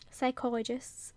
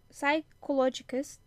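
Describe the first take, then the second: First: Psychologists said carefully as saikolajists; corrected word. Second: Psychologists said as saikolodjikes, garbled; stumbled word. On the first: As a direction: land psychologists correctly after the stumble. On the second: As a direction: drag out psychologists slowly and mangle it. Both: Real, not acted. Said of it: "oh my god".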